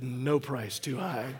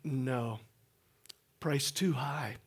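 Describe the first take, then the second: First: It runs on with no pause after "no." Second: There is a pause after "no."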